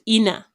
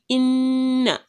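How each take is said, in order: First: The n sound is short and single. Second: The n sound is held long, doubled. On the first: The speaker calls it wrong. "and not just ina" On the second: The speaker calls it right. "it will be inna"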